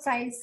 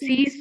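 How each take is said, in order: First: The vowel is an eye sound. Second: The vowel is a long ee sound. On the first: The speaker calls it wrong. "not size" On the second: The speaker calls it right.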